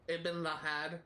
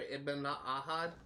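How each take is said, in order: First: An L sound comes before Ahad. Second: No L sound comes before Ahad. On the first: The speaker calls it wrong. "they also mispronounced Altair's name" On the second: The speaker calls it right. "his name is pronounced Altair Ibn Ahad"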